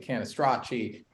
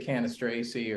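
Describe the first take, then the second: First: The surname is said with an Italian pronunciation. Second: The surname is said with an American pronunciation. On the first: "saying it the Italian way" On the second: "In America, you can say Canistraci"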